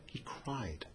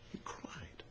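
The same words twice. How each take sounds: First: Quiet statement, much softer; softly said. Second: Whispered. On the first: Preacher tells congregation Esau cried, said very softly. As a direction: drop the voice low on He cried. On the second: Preacher repeats Esau's crying to the congregation, whispered. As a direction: whisper He cried. with no voice. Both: Shown as a demonstration. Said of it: "it wasn't a normal cry".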